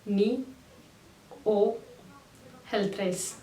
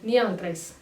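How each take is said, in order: First: The middle word is a full, separate 'o' sound. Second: The middle word is reduced to a quick 'a' sound. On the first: The speaker calls it wrong. "नी ओ हेल्थ्राइस इस तरीके से कोई बात नहीं करता है" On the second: The speaker calls it right. "बहुत जल्दी जल्दी बोलते हैं और ओ का जो साउंड है वो अह सुनाई देता है"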